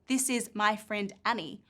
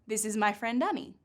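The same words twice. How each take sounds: First: The words are said separately, not linked. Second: The words are linked smoothly together. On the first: The speaker calls it wrong. "We don't actually say" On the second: The speaker calls it right. "What we do is this"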